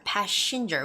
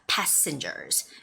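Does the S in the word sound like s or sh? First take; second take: sh; s. First: The s sound is said like sh. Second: The s sound is a clear s. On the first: The speaker calls it wrong. "makes that S sound a little bit more like the S H sound" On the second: The speaker calls it right. "Don't make the S H sound"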